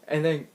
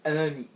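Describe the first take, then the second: No difference in how they are said.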